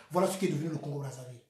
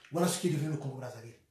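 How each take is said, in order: Both takes have the same delivery.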